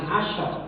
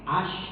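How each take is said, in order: First: The word ends with an added vowel. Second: The word ends on the final consonant. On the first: The speaker calls it wrong. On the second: The speaker calls it right. "gitu aja Pak"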